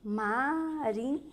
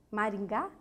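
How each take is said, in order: First: "Maringá" softly and slowly, ma... rin... gá; syllable by syllable. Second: Said in the usual way. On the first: Shown as a demonstration. Teacher trying out an example, "Maringá" slowly split into syllables. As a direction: draw out "Maringá" with pauses between syllables. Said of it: "Separando a palavra".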